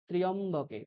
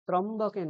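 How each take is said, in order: First: It begins 'tri-yam' with an 'i-y' sound. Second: It begins 'tram' with no 'i-y' sound. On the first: The speaker calls it right. "ত্রি অ, এখানে ইয়কারটা রয়েছে" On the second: The speaker calls it wrong. "ত্রম্বকে নয়"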